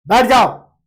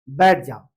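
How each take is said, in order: First: बैठ जाओ barked louder; angry order. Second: Gentle sit down. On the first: Teacher angrily orders someone to sit, louder. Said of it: "गुस्सा के किसी चीज को बोल रहे हैं". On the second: Teacher kindly asks someone to sit, low. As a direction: invite them to sit kindly. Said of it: "meaning change हो गया". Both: Shown as a demonstration.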